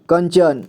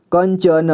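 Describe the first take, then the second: First: Said in the usual way. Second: कंचन split as "kan-cha-na"; कंचन with its final न voiced as "na"; sounded out. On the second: Shown as a demonstration. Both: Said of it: "तो इसे पढ़ेंगे".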